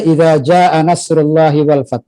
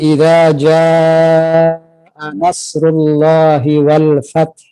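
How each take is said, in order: First: It is recited at a normal everyday pace. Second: It is recited slowly with long drawn-out vowels. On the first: "kalau dibaca biasa saja" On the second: "kalau dibaca tartil"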